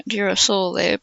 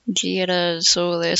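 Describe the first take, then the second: First: Said in the usual way. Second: "girasole" slowly, with an attempt at Southern Italian sounds; Southern Italian pronunciation. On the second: Shown as a demonstration. Reader tries the dialect word for the listeners, Southern Italian pronunciation of "girasole". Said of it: "something like that in Southern Italian dialect".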